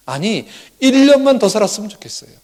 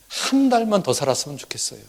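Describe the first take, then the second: First: Acted plea, higher and louder; raised, urgent wish in a mother's role; earnest plea. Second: Said in the usual way. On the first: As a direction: plead harder as the desperate mother. Voicing the mother's greater wish.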